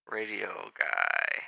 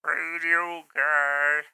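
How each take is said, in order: First: Said in the usual way. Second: Slow radio announcer voice. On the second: Shown as a demonstration. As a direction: stretch it like a radio host. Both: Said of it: "Now I sound like a".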